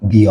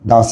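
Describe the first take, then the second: First: The vowel of the word is a long 'ee'. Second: The vowel of the word is a short 'uh'. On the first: The next word starts with a vowel. "দি earth" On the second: The next word starts with a consonant. "কনসোনেন্টকে দা বলবো"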